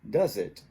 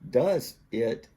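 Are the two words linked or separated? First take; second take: linked; separated. First: The z sound links into the next word. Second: The two words are said separately. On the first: "becomes does it" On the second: "does it becomes"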